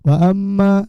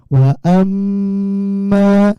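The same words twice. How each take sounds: First: The nasal m is cut short and quick. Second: The nasal m is held long. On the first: The speaker calls it wrong. "Jangan cepat-cepat bacanya. ... Jangan wa amma" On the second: The speaker calls it right. "Di dengungnya ditahan ya. ... tapi wa amma"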